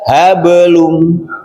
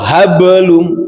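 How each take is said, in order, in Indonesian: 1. Diucapkan dengan lembut dan mengalir. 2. Diucapkan dengan hentakan yang tiba-tiba. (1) "jadi lembut" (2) "ada itu ada ada hentakan"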